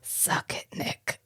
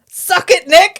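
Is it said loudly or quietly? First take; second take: quietly; loudly. First: It is said quietly, under the breath. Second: It is said loudly.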